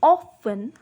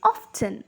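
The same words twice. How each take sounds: First: "often" with a silent T; British "often", no T sounded; British pronunciation. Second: "often" with the T sounded; American "often", clear T after the F; American pronunciation. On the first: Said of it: "In British English". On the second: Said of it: "in American accent". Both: Shown as a demonstration.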